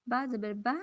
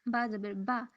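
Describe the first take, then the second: The two takes are said the same way.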